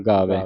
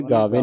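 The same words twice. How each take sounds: First: ਗਾਵੇ lower and louder, ending in open ai; correct ending. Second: ਗਾਵੇ ending in a close e; wrong reading. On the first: Teacher correcting the reading for the student, correct ending. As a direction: open the end of ਗਾਵੇ to gaavai. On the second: Teacher warning the student off a misreading, wrong ending. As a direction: say the mistaken gaave in ਗਾਵੇ. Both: Shown as a demonstration. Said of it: "ਗਾਵੇ ਨਹੀਂ ਪੜ੍ਹਨਾ".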